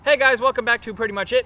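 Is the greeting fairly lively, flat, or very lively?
very lively. It is said with full, high enthusiasm.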